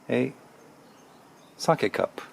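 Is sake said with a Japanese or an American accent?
Japanese. Sake is said with a Japanese pronunciation.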